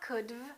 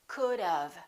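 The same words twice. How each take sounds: First: The v follows the d with no vowel between. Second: A short uh vowel comes before the v. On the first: The speaker calls it wrong. "they just add the V and they say could've. It's not could've" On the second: The speaker calls it right. "We put a little uh sound in there"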